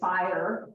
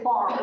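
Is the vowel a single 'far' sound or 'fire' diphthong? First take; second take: fire; far. First: It is said with a full 'fire' diphthong. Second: It is said as 'far' with a flattened vowel.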